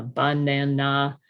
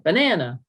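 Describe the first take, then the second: First: "banana" in even, separated syllables, BAN-NAN-NAH; changed lexical stress. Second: Said in the usual way. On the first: Shown as a demonstration. Clinician showing a child's effortful word, equal stress on "banana". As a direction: give every syllable of "banana" equal weight and full vowels. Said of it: "we notice the lexical stress pattern often changes". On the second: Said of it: "instead of banana".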